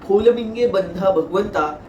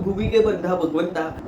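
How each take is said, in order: First: The first word is said as Bholaminge. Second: The first word is said as Bhumige. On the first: The speaker calls it right. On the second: The speaker calls it wrong.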